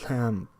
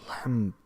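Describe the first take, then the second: Both takes have the same delivery.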